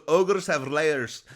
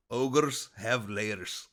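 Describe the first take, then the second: First: Slow, loud ogre bellow; Shrek impression. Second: Slow, drawn-out ogre voice; Shrek impression. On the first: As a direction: boom it out slowly like a big ogre. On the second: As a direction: drag each word out like a lumbering ogre. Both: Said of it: "But I'm trying to sound like Shrek".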